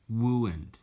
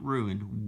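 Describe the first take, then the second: First: The first sound is a w-like r. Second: The first sound is a normal r. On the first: This is how the character speaks. "Elmer Fudd talks like that" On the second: This is how it is normally said.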